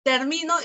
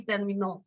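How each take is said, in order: First: "termino" hit on the middle syllable; stress on MI of termino. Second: "terminó" hit on the last syllable; stress on NÓ of terminó. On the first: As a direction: lean on MI in "termino". (acento en MI de «termino») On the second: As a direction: lean on NÓ in "terminó". (acento final en NÓ de «terminó») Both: Shown as a demonstration. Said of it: "el acento siempre cumple función distintiva".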